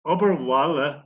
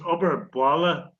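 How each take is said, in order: First: The second word begins with a soft w sound. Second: The second word begins with a hard b sound. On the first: It means work around the home. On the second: It means schoolwork done at home.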